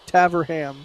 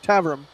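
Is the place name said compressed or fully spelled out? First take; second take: spelled out; compressed. First: Every written syllable is sounded out in full. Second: The letters are smashed together into a short form. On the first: The speaker calls it wrong. "like an American city or town name, I would say Taverham, but that's obviously wrong" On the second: The speaker calls it right. "just smash all the letters together and sort of just run through it without really moving your mouth too much"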